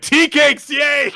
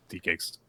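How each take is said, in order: First: Very high, loud mock cheer; excited. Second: Said in the usual way. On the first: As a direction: shout it like a child getting sweets. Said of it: "Just excited for the sweets".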